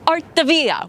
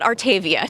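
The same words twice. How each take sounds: First: The name is pronounced with an Italian accent. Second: The name is pronounced with an American accent. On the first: The speaker calls it right. "with an Italian accent" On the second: The speaker calls it wrong. "It's not Artavia"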